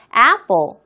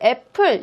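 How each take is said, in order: First: It is pronounced with an English accent. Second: It is pronounced with a Korean accent. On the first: The speaker calls it right. "apple 이렇게 발음할 때 굉장히 그 신선한 충격" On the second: The speaker calls it wrong. "우리는 딱 이걸 보면 애플 이렇게 발음을 하잖아요"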